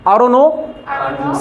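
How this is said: It is said in a foreign-style English accent. "ये अलग विदेशी बताए हैं"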